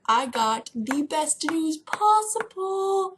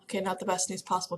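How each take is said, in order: First: Slow, drawn-out big reveal, pitched higher; grand announcement. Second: Said in the usual way. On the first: Acted. Vlogger teasing viewers with big news, slow grand reveal. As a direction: oversell the news like a trumpet fanfare. Hyping news, then taking it back.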